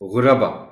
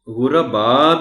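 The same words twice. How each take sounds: First: The ba syllable is kept short. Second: The ba syllable is drawn out long. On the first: The speaker calls it right. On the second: The speaker calls it wrong.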